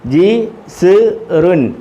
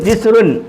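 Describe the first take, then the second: First: It is said slowly, syllable by syllable. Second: It is said quickly as one word.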